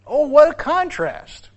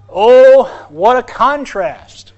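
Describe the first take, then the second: First: High, slow, drawn-out wonder; high, slow cry of wonder; soaring exclamation. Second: Loud, slow, drawn-out exclamation; loud, slow cry of amazement; dramatic exclamation. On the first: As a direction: lift it up in awe. Repeated with higher pitch. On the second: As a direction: belt it out to wake the church. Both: Real, not acted.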